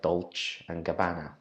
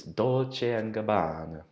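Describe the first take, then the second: First: Dolce and Gabbana said flat, gab-BAN-uh; wrong reading of Dolce and Gabbana; English misreading. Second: Dolce and Gabbana said slowly as DOL-chay and gab-BAH-nah; Italian pronunciation. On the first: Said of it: "it looks like". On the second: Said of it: "But, uh, it's". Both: Shown as a demonstration.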